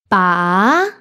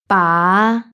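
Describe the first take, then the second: First: The pitch rises from a high starting point. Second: The pitch rises from a low starting point. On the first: "in second tone" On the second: "then in fifth tone"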